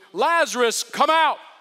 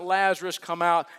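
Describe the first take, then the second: First: It is said forcefully, like a commanding order. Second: It is said softly, like a gentle request.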